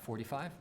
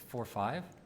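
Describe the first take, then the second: First: It is said as one whole number. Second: It is said as two separate digits. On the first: It names a single number. The speaker calls it wrong. "not forty-five" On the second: It names two precision orders, four and five. The speaker calls it right. "It's forty-five"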